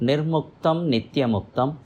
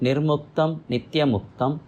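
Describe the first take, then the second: No difference in how they are said.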